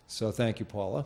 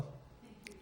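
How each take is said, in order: First: Said in the usual way. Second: "Thank you, John" whispered, no voice; whispered aside of thanks. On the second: Real, not acted. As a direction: breathe a quick thank you off-mic.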